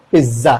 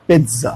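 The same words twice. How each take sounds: First: पिज़्ज़ा with only a z sound, no t; common mispronunciation. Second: पिज़्ज़ा as "pit-za", a t before the z; correct pronunciation. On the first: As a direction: say पिज़्ज़ा as "piz-za". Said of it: "हम क्या कहते हैं". (पिज़्ज़ा में सिर्फ़ ज़, बिना ट) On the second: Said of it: "इसीलिए ये हो जाएगा". (पिज़्ज़ा में ज़ से पहले हल्का ट) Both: Shown as a demonstration.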